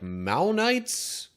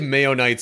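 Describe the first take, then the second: First: The first syllable sounds like 'mao', rhyming with cow. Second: The first syllable sounds like 'may', as in mayonnaise. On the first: The speaker calls it right. "Could be maybe like Maonites? That might be a better" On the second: The speaker calls it wrong. "I say Mayonites and it makes me think mayonnaise"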